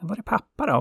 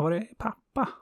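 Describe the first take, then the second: First: Put-on sun's child asking for its father, high and worried. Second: Put-on sun's child asking again, high and small. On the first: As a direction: ask like a worried small kid. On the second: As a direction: repeat the question like a small kid. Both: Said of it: "hennes barn frågade".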